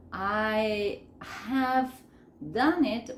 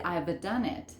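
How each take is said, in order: First: "I ... have ... done it", pulled apart; full form. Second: "I've" as one syllable; contracted form. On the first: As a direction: pause after "I" and after "have". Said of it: "En vez de decir". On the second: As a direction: run "I've done it" together. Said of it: "voy a decir". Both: Shown as a demonstration.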